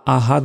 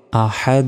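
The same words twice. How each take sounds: First: "আহাদ" with plain h and clipped-off d; wrong soft ahad. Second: "আহাদ" with the final d bounced into a short echo; qalqalah bounce. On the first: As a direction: cite "আহাদ" as the error, no echo on d. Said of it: "আহাদ নয়". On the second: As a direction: push off the d of "আহাদ" after a throaty h. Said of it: "বলতে হবে আহাদ". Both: Shown as a demonstration.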